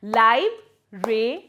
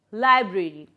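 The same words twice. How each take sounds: First: "Lib-ra-e" as three isolated beats; split into syllables. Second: Said in the usual way. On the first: Shown as a demonstration. Teacher breaking a word for pupils, "Lib-ra-e" in three parts. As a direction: sound out "Lib-ra-e" with pauses between syllables. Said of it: "break them into three syllables". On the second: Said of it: "Then library".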